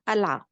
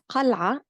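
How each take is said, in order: First: The word starts with a glottal stop. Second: The word starts with a deep q sound. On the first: This is the Lebanese form. "In Lebanese, we pronounce it as قلعة because we swap the qaf over here for a glottal stop" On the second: This is the standard Arabic form. "the word قلعة in Arabic means a fort"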